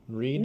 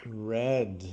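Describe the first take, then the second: First: The word has a long vowel, like reed. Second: The word has a short vowel, like red. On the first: It is the present tense. "Read is only the present" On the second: It is the past tense. "just like the color"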